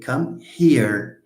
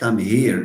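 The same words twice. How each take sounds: First: The h is a voiceless English h. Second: The h is said the Arabic way. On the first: The speaker calls it right. "We say come here" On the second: The speaker calls it wrong. "It's not come here. It's not a h. That's in Arabic"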